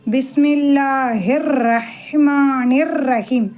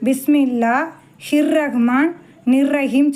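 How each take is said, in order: First: The words are joined smoothly without breaks. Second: The words are split apart with small breaks. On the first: The speaker calls it right. "இந்த இதை இதோட சேர்க்கணும்" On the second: The speaker calls it wrong. "எல்லோரும் என்ன சொல்லுவாங்க"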